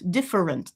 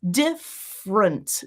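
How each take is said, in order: First: It has three syllables with a middle schwa. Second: It has two syllables with no middle schwa. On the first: "And then I've got my schwa" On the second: "Or if you want to get rid of that completely and do it in two"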